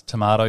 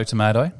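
First: Tomato said "to-MAH-to"; long ah in the middle of tomato. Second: Tomato said "to-MAY-to"; ay in the middle of tomato. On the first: Quizzing co-host on accents, tomato as "to-MAH-to". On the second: Quizzing co-host on accents, tomato as "to-MAY-to". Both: Shown as a demonstration. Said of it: "What about dance and dance?".

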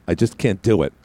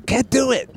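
First: Said in the usual way. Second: High, squeaky little whine; mock childish squeal, pitched way up; mock helpless child. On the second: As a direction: squeal it like a helpless kid, hammed up. Mocks himself as a helpless child.

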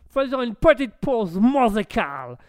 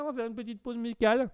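First: Put-on high, loud American-accented French. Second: Said in the usual way. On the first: American agreeing to the music break, loud American accent. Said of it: "bel accent de bouffeur d'hamburger".

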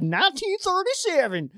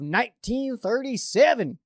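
First: Put-on high, old newsreel announcer voice; old-timey voice. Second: Said in the usual way. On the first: Shown as a demonstration. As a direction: say it like a 1930s radio man. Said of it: "I do, like, old-timey voice". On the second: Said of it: "when I say a really old year".

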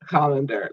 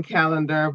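First: "colander" with an open ah, KAH-len-der; corrected guess. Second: "calendar" with the short a of cat; former pronunciation. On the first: Host guessing the town's proper name, "colander" as KAH-len-der. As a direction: say "colander" starting like "collar". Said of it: "I feel like it should be". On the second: Host showing how she's been saying the town, "calendar" as CAL-en-der. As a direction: say "calendar" like the wall calendar. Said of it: "I've been saying calendar". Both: Shown as a demonstration.

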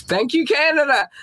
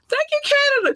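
First: Playful high thanks; high sing-song thanks. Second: Squeaky falsetto thanks. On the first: Thanking Canadian listeners in a high sing-song voice. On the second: Thanking Canadian listeners in a very high squeaky falsetto. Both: Acted.

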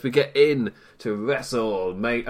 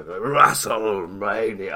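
First: Said in the usual way. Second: Slow, drawn-out announcer call; with more gusto. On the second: Shown as a demonstration. Host redoing the show intro for stream viewers, drawn-out hype call. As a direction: stretch it out like a big ring announcement. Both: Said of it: "I didn't say that with enough gusto".

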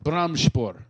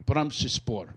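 First: "Brahmsspor" in two syllables, brahm-shpor; trying a pronunciation. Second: "Brahmsspor" in three syllables, brahm-shuh-spor; trying another pronunciation. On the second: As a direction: say "Brahmsspor" lower, with a short vowel after brahm-sh. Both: Shown as a demonstration. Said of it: "how do you pronounce it?".

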